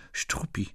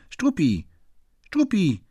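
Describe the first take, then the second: First: Whispered, barely voiced name; hushed name. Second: High, louder call of the name; calling the dog. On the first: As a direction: breathe the dog's name quietly. Naming the dog at the door. (geflüstert, fast tonlos) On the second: Acted. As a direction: call the dog from across the room. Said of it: "rief Fräulein Otterlo". (laut und hoch nach dem Hund rufen)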